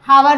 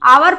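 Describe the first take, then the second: First: The word begins with an h sound. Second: The word begins with a vowel, h silent. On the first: The speaker calls it wrong. "हावर ना पढ़ के" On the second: The speaker calls it right. "एच silent इसमें रहता है"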